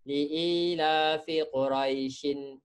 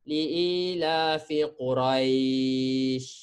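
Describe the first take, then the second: First: Quraisyin ends in an n linked onward. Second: It stops on Quraisy with a lengthened vowel. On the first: The reading continues into the next word. "kalau awak sambung ... tak akan jadi madlin" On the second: The reading stops at this word. "mesti berhenti baru jadi madlin"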